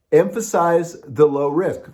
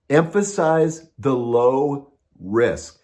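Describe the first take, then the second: First: Emphasize pressed a little harder and higher as a repeated point; restated with more weight on Emphasize; stress on Emphasize. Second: Said in the usual way. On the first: Shown as a demonstration. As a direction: drive home Emphasize the second time.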